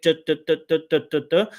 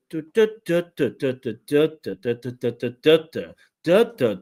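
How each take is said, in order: First: Every "duh" evenly beaten on one pitch; mechanical rhythm. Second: "duh" syllables rising and falling in turn; varied intonation. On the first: Coach demonstrating weak intonation, each "duh" mechanical and level. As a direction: tap out "duh" like a machine, monotone. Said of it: "this is what we call mechanical pronunciation". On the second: Coach showing the missing intonation, "duh" syllables with lively pitch movement. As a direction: make each "duh" move up or down in pitch. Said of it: "So we don't get the". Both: Shown as a demonstration.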